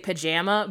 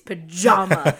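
First: The word is said with a Chicago pronunciation. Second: The word is said without a Chicago pronunciation. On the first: This is the speaker's habitual regional way. The speaker calls it wrong. "I culturally say pajama" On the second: This is the way required for the show. The speaker calls it right. "get this Chicago shit out of your mouth, it's pajama"

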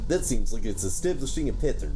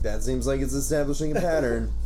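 First: It is spoken in a Russian accent. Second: It is spoken in the speaker's ordinary accent.

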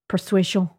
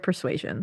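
First: The word is said in a French accent. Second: The word is said in a plain English accent.

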